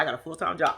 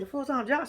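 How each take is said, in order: First: "job" falling, low and soft; retold statement. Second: "job" lifted at the end as a question; questioning echo. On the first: Lindsay announcing her news, low retold statement. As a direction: state it quietly, dropping on "job". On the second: Retold or imitated. Speaker reacting to Lindsay's news, questioning echo. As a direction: echo it back, rising on "job".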